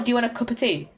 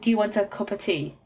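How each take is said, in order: First: Cup and of are run together quickly. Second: Cup and of are said as separate words. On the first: "so it just gets merged off, merged into" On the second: "Cup. Of"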